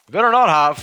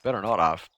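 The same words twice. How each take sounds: First: High, loud "Better not have" with "not" hit hard; loud warning. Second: Said in the usual way. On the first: Real, not acted. Gamer warning about the rug, loud threat stressing "not". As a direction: shout the threat, leaning on "not".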